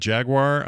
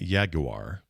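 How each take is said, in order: First: The word is said with only two syllables. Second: The word is drawn out into extra syllables. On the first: This is the speaker's own usual way. "I've always said Jaguar. I will never say more than that" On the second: Someone else said it this way. "Or as my uncle used to say"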